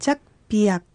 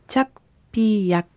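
First: The word is said smoothly at normal speed. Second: The word is said slowly, sound by sound. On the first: "続けて発音してみましょう" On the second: "ゆっくり発音してみましょう"

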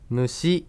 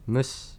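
First: The final vowel is voiced clearly. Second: The final vowel is voiceless, without voice. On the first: The speaker calls it wrong. "むしではなく" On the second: The speaker calls it right. "シを声を出さずに発音する音です"

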